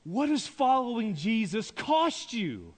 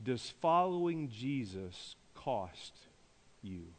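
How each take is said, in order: First: Raised pitch, leaning hard on "cost"; forceful preaching question. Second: Low, slow, softened question; soft, weighty question. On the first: Preacher repeats his challenge to congregation, forcefully. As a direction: drive the question home to the room. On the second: Preacher puts a searching question to congregation, softly and slowly. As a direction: pose it slowly and let it land. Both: Real, not acted.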